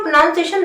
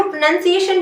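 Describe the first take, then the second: First: प्रोनाउंसिएशन said as "pro-NOUN-see-ay-shun"; pronunciation variant. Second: प्रोनाउंसिएशन said as "pro-NUN-see-ay-shun"; pronunciation variant. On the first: Teacher showing students the other variant, प्रोनाउंसिएशन with "noun". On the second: Teacher showing students an accepted variant, प्रोनाउंसिएशन with "nun". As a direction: say प्रोनाउंसिएशन with a short "nun" in the middle. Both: Shown as a demonstration. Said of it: "दोनों ही बोल सकते हैं".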